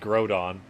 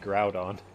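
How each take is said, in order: First: The first syllable sounds like 'grow'. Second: The first syllable sounds like 'growl'. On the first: "G R O W is grow. And that'd be Groudon" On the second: "But Growl would be Groudon"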